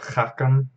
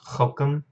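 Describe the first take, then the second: First: The first vowel is an 'a' sound. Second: The first vowel is an 'o' sound. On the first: The speaker calls it wrong. "Instead of Chakam" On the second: The speaker calls it right. "it's Chokam"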